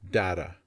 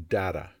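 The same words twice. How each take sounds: First: The middle consonant sounds like a soft D. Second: The same.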